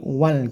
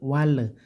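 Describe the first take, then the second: First: The final l stops short and clean. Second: The final l is followed by an extra vowel. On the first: The speaker calls it right. "gitu saja, singkat" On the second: The speaker calls it wrong. "nggak pakai tawalud"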